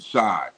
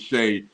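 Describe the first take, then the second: First: The vowel sounds like the one in 'eye'. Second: The vowel sounds like the one in 'day'. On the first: The speaker calls it wrong. "I was calling him Shy" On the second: The speaker calls it right. "It is Shea Gilgeous-Alexander"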